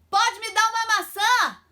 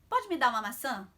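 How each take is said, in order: First: It is said loudly, as over noise. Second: It is said at a calm, normal volume.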